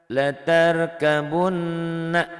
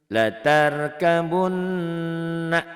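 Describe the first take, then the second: No difference in how they are said.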